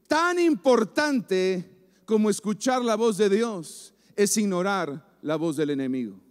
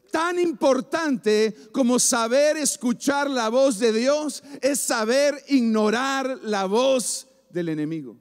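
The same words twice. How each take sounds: First: Said in the usual way. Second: "saber" e "ignorar" recalcados, con la voz sostenida arriba; repetición enfática. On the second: Real, not acted. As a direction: recalca "ignorar" y deja caer "enemigo" al final. Repite la frase con énfasis. (repetición enfática de predicador, con "saber" recalcado)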